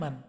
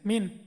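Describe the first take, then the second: First: The word is said with an 'a' vowel. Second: The word is said with an 'i' vowel. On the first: The speaker calls it right. "শুদ্ধ উচ্চারণ হলো মান" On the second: The speaker calls it wrong. "এই মানটাকে অনেক সময় এরা উচ্চারণ করে মিন"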